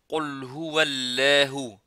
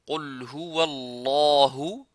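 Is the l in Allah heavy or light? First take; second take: light; heavy. First: The l in Allah is light and thin. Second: The l in Allah is heavy and emphatic. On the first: The speaker calls it wrong. "on ne dit pas" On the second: The speaker calls it right. "on dit"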